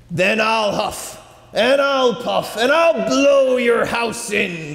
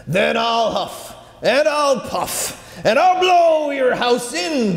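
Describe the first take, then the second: First: Higher, slow and menacing; werewolf. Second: Rising higher, slow, building to a roar; werewolf. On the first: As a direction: threaten with rising force. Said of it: "the wolf cried back". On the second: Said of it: "the wolf cried". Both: Acted.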